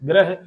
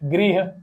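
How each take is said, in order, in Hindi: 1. र के बाद का स्वर 'a' है। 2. र के बाद का स्वर 'i' है। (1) "हम दोनों को ही ग्रह बोलते हैं ... बल्कि गलत है" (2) "इसका गृह"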